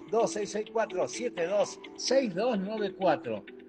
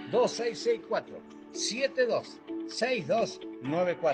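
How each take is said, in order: First: The number is said fast. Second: The number is said slowly.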